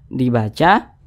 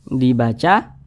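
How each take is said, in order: The two takes are said the same way.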